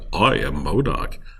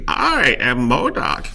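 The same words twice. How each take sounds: First: The voice is smooth and suave. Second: The voice is not suave.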